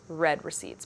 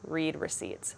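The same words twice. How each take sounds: First: The word read rhymes with bed. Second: The word read rhymes with need. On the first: "When I say it out loud ... because I read it. They're not for reading" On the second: "when I'm reading that in my head, I'm thinking"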